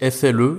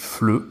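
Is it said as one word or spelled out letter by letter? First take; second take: spelled out; one word. First: Each letter is named separately, one by one. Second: The three letters are run together as one word. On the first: The speaker calls it wrong. "beaucoup de gens qui pensent que ça se dit" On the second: The speaker calls it right. "on va prononcer les trois lettres ensemble"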